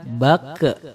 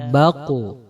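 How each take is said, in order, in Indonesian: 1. Huruf q terakhir memantul dengan gema mirip 'e' yang ringan. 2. Huruf q terakhir memantul dengan gema mirip 'u' yang dalam. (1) "Jangan dibaca bake" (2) "Qalqal dari huruf qaf ini dibaca baqu"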